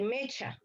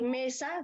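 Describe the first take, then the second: First: Mecha with ch where mesa has s; child's mispronunciation. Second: Said in the usual way. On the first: Shown as a demonstration. Mother tells therapist the child says mecha. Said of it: "dice mecha". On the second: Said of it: "en vez de decir mesa".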